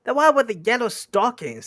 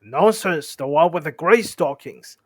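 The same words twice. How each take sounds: First: High, loud squeaky troll; high-pitched troll answer; Bert's squeaky voice. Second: Loud, contradicting troll, less high; loud, moderately raised troll retort; William-like troll voice. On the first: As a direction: squeak it out loudly. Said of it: "the squeaky voice". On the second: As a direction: contradict loudly without squeaking. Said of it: "said a voice like William's". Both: Acted.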